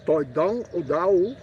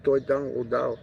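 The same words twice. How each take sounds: First: "Toi dang o dao" slow and higher, rising at the end on "dao"; properly toned. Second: Said in the usual way. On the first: Shown as a demonstration. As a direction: draw out "Toi dang o dao" slowly, tones up, with a rise on "dao". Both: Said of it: "You gotta say it properly".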